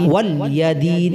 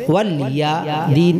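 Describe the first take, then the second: Both takes have the same delivery.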